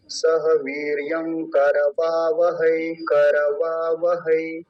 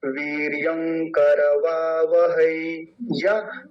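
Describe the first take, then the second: First: सह वीर्यं करवावहै said very slowly; slow recitation. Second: वीर्यं करवावहै read slowly with ङ before क; alternative reading. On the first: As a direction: recite slowly, each syllable clear. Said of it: "इसका ध्यान रखेंगे". (धीरे-धीरे पाठ) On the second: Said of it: "वो भी बोल देंगे तो उसमें भी कोई बुराई नहीं". (धीरे, संधि के साथ) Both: Shown as a demonstration.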